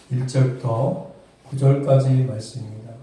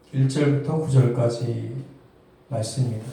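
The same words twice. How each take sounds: The two takes are said the same way.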